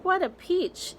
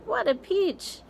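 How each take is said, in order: First: Much higher, delighted exclamation; aunt dancing round the tree, squealing with joy; gleeful aunt. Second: Much higher, put-on gleeful squeal; aunt hopping about, squealing. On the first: Acted. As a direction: crow with delight. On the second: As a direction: squeal it even more shrilly in glee. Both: Aunts dancing in excitement.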